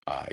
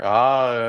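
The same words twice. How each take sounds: First: It is said in a low, deep voice. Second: It is said in a high voice.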